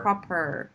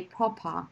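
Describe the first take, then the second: First: "proper" with a strong final r; imitating "proper" with a drawn-out r ending; imitated American pronunciation. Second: "proper" with the final r dropped; soft "proper", no r at the end; British pronunciation. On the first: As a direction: say "proper" the American way, curling the r at the end. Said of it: "when Teacher Will says it". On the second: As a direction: say "proper" the British way, ending in an open "ah". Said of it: "can you guys hear the difference". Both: Shown as a demonstration.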